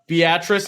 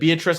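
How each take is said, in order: First: It uses the local pronunciation of the town name. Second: It uses the common pronunciation of the name. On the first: This is how the town is really said. The speaker calls it right. "Beatrice instead of" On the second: This is how outsiders assume it is said. The speaker calls it wrong. "A lot of people think it's Beatrice"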